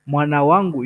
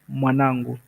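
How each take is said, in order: First: It is said as two separate full words. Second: It is contracted into one shorter word. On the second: "Mwanangu is a short form"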